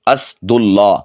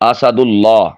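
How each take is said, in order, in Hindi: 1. s के बाद सीधे d आता है, कोई स्वर नहीं। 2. s के बाद छोटा a स्वर आता है। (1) "अस सीन साकिन कर दी, ये गलत है" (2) "सीन के फतहा के साथ"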